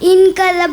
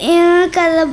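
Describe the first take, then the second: First: The n sound is pronounced fully and clearly. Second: The n is hidden in a nasal hum. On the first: The speaker calls it wrong. "എന്ന് ഓതരുത്" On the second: The speaker calls it right. "നിയമം ഇഖ്ഫ ... എന്ന് ഓതണം"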